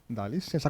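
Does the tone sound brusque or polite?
polite. It is said in a polite, gentle tone. A courteous request to pass. The speaker calls it right. "Você fala, dá licença"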